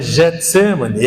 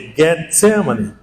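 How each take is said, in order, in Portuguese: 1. O nome começa com um som de zh suave. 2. O nome começa com um som de g duro. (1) "não é Getsemane" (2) "é Getsemane"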